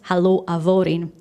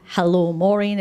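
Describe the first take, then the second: First: The name begins with a V sound. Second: The name begins with an M sound. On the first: "M H together in Gaelic is a V sound" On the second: "instead of saying hello Maureen"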